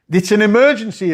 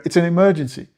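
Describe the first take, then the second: First: Higher, louder insistent repeat; loud sharp voice. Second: Said in the usual way. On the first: Shown as a demonstration. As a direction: drive it home, raising voice.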